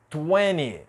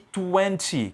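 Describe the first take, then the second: First: The T after the N is dropped. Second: The T after the N is clearly pronounced. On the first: "a gente não pronunciar a letra T depois da letra N" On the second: "Se você pronunciar do jeito que está aqui"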